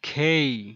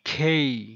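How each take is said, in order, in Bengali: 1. K-এর পরে বাতাসের ফুঁ আছে। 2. K-এর পরে বাতাসের ফুঁ আছে।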